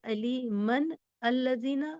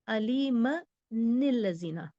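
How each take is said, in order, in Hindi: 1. n अगले शब्द से नहीं जुड़ता। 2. n अगले शब्द से i के साथ जुड़ता है।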